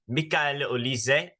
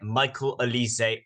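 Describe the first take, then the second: First: The name is pronounced the French way. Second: The name is pronounced the English way. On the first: "en français" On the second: "en anglais, uh, or in English"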